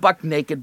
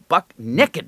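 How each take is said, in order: First: The second word is said as standard 'naked'. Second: The second word is said as 'nekkid'. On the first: The speaker calls it wrong. "Not buck naked" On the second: The speaker calls it right. "N-E-K, apostrophe D"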